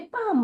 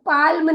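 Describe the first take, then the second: First: The L is silent, going straight to M. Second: The L sound is pronounced before the M. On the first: The speaker calls it right. "पाम बोलेंगे" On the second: The speaker calls it wrong. "एल को भूल जाएंगे और पाल्म नहीं बोलेंगे"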